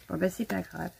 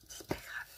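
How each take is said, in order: First: Said in the usual way. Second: « C'est pas grave » soufflé très bas; chuchoté. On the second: Real, not acted. Se le redit tout bas. (se consoler en chuchotant)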